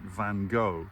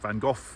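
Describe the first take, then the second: First: The name is pronounced a non-British way. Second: The name is pronounced the British way. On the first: "a lot of people pronounce it Van Gogh" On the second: "we say Van Gogh in the U K"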